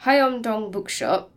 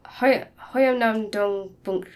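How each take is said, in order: First: Slow, careful "Hoyeomdong" said as three clear syllables; corrected title. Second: Slow, halting attempt at "Hoyeomnam-dong", syllables garbled; stumbling on title. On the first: Host retries the Korean book title, slow and careful. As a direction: land "Hoyeomdong Bookshop" deliberately and slowly. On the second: Host stumbles over Korean book title, slow and garbled. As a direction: fumble the Korean name "Hoi-, Hoyeomnam-dong" slowly. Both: Real, not acted. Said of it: "listen to people pronounce that".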